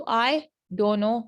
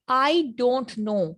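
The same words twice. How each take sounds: First: "I don't know" with the t of "don't" dropped; reduced casual form. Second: "I don't know" slow, each word complete; full careful form. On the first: Teacher showing everyday speech, reduced and linked. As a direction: link it as "I dono". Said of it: "मतलब तेजी से बोलते हैं". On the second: Teacher giving the unchanged phrase, slow and full. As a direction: sound the t in "don't", words kept apart. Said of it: "इसको अगर हम change करते हैं". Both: Shown as a demonstration.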